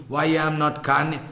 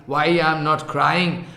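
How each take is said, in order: Both takes have the same delivery.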